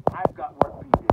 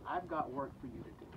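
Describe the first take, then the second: First: Louder, pressing the charge home; loud emphatic repeat. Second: Said in the usual way. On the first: Acted. Jesus pressing Peter with his task, loud and emphatic. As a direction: drive the words I've got work for you to do out hard and loud.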